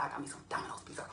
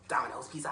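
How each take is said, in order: First: Whispering. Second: Said in the usual way. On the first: Pretend. Whispered repeat.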